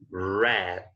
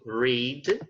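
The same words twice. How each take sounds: First: The vowel is short, rhyming with bed. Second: The vowel is long, rhyming with seed. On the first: It is the past form of the verb. "the pronunciation here is red, okay? Like the color red" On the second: It is the present form of the verb. "the past of read"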